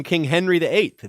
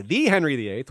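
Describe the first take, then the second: First: Said in the usual way. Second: "the" said as "thee" for emphasis; single out the name with an emphatic "thee"; stress on "the". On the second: Shown as a demonstration. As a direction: lean on "the" as "thee", meaning the famous one. Repeats name to mark which Henry.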